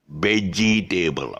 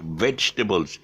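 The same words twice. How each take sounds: First: "vegetable" slowly as "VEGGIE-TABLE"; mispronounced vegetable. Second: "vegetables" as "VEJ-tuh-bulls"; vegetables without table. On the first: Teacher showing the common error, "vegetable" as slow veggie-table. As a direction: split "vegetable" into veggie plus a full "table". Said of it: "they see a veggie and they see a table". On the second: Teacher modelling British way, "vegetables" as vej-tuh-bulls. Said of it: "but there's no table. It's vegetables". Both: Shown as a demonstration.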